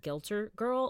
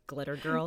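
First: "Gilter" with a hard g and the l before the t; said as misspelled. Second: Said in the usual way. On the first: Shown as a demonstration. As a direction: say "Gilter" as GIL-ter. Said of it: "it's spelled Gilter Girl". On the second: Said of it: "she's meaning Glitter Girl".

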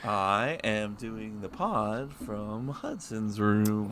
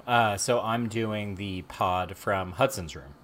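First: Slow, soft mock surfer drawl; imitating surfer. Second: Slow, drawn-out California surfer; easy-going sixties surfer drawl; laid-back surfer voice. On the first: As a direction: lazily imitate a California surfer. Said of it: "sound like a surfer from California in the nineteen sixties". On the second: Real, not acted. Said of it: "Why do I sound like a surfer".

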